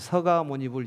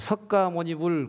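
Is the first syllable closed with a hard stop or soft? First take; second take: soft; hard stop. First: The first syllable runs softly into the second. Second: A hard k stop closes the first syllable.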